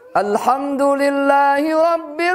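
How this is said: The recitation is pitched high. The speaker calls it right. "harus tinggi"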